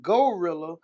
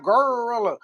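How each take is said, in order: First: "gorilla" with a clear "go" first syllable; standard gorilla. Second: "gorilla" with a long growled r, "gurrr-illa"; Memphis gorilla. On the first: Shown as a demonstration. Contrasting with Memphis speech, standard "go-rilla" for "gorilla". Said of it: "not gorilla". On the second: Retold or imitated. Mimicking a Memphis rapper, drawn-out "gurrr-illa" for "gorilla". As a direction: stretch the r in "gorilla", country style.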